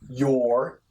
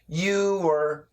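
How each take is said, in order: First: Said faster, squeezed into a single syllable. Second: Two syllables, joined by a light W glide. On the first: "If we say it faster, it does sound like this" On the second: "Perfect pronunciation, you, and then an er, so we get a little bit of a W"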